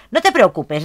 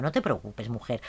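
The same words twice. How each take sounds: First: Said in the usual way. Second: Much softer, lower soothing words; tender murmured reassurance; soft comfort. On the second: Acted. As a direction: hush her gently. Comforting crying sim.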